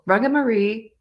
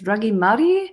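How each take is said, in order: First: The name is said with anglicized vowels. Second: The name is said with Māori-like vowels. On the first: The speaker calls it wrong. "I'm totally butchering the pronunciation of it" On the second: The speaker calls it right. "I think it's Rangimari"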